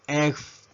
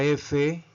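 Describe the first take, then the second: First: Letter F pronounced "ef"; English letter F. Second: Said in the usual way. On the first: Shown as a demonstration. Teacher modelling the English alphabet, F as "ef". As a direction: say F as one-syllable "ef". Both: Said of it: "La letra F".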